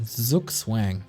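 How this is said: It is said with an English pronunciation. "as you guys would probably pronounce it"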